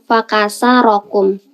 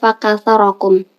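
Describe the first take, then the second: First: The consonant after 'faka' is an s sound. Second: The consonant after 'faka' is a th sound. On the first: You were broken apart. The speaker calls it wrong. "dengan huruf sin dengan lisan orang Mesin" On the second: You were made many. The speaker calls it right. "menggunakan huruf sa"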